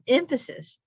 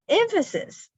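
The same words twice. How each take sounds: First: Said in the usual way. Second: "emphasis" leaping very high, then falling; mock emphasis. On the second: Mom echoing her joking sons, "emphasis" exaggerated way up high. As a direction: echo "emphasis" in a high, put-on voice. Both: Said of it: "that's what I hear in my brain".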